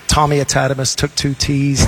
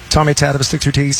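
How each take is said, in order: First: It is said at a slower pace. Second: It is said at a fast pace.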